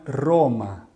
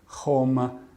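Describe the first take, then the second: First: The first R is a clear rolled R. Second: The first R sounds like a breathy H. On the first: "o R tem um som bem claro, a gente diz que é um som redondo" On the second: "como se buscasse mais o, o, o H"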